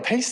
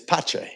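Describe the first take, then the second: First: The C is said as an s sound. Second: The C is said as a ch sound. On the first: The speaker calls it wrong. "Pace doesn't sound very Italian" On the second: The speaker calls it right. "the first C is a C H sound"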